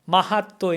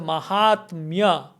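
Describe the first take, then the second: First: The middle has a long doubled t sound. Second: The middle has a t-m consonant cluster. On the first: This is how people commonly say it. "Mahatto in common pronunciation" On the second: This is the form as written. "We don't say Mahatmya"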